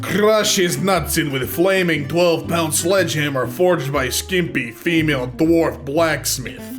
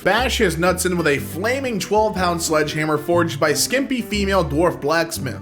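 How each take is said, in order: First: It is read in a put-on different accent. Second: It is read in the speaker's normal accent.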